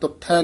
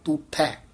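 First: The first vowel is a short u. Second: The first vowel is a long u. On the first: The speaker calls it wrong. "ਤੁਠੈ ਨੀ ਕਹਿਣਾ" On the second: The speaker calls it right. "ਦੁਲੈਂਕੜਾਂ ਨਾਲ ਉਚਾਰਨ ਕਰਨਾ"

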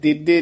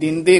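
First: The d is doubled with no nasal sound. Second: The first syllable is nasalized before the d. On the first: The speaker calls it wrong. "ਇੱਥੇ ਦਿੱਦੇ ਨੀ ਕਰਨਾ ਹੈ" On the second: The speaker calls it right. "ਇੱਥੇ ਦਿੰਦੀ ਹੈ ਉਚਾਰਨ, ਦਿੰਦੇ ਕਰਨਾ"

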